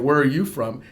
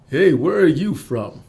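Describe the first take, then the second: First: It is said in the speaker's own voice. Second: It is said in a creepy Lando impression.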